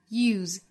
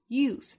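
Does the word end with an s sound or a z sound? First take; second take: z sound; s sound. First: The word ends with a voiced z sound. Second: The word ends with a voiceless s sound. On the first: The word is used as a verb. "use 这个词做动词的时候读成 use, 单词尾部是浊音的 z" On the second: The word is used as a noun. "做名词的时候读成 use, 单词尾部是清辅音"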